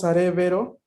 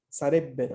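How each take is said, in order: First: The b is soft, like a v. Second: The double b is strong and hard. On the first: The speaker calls it wrong. "si decimos sarebbero, lo que escribimos es así como les estoy enviando en el chat, con la V" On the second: The speaker calls it right. "hay que pronunciarla fuerte, dura"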